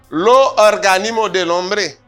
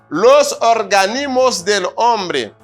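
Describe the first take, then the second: First: The final s sounds are dropped. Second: The final s sounds are clearly pronounced.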